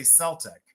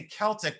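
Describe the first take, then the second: First: "Celtic" as SEL-tik; soft-C pronunciation. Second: "Celtic" as KEL-tik; hard-K pronunciation. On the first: Seller questioning the usage, "Celtic" with an S. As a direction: start "Celtic" on an S sound. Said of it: "why don't you say Celtic". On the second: Seller quoting the usual way, "Celtic" with a K. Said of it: "but you say Celtic". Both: Shown as a demonstration.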